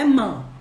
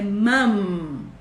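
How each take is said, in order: First: The final M is dropped into a nasal vowel. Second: The final M is clearly and strongly pronounced. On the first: The speaker calls it wrong. "não é mãe" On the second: The speaker calls it right. "a gente tem que marcar forte essas letras"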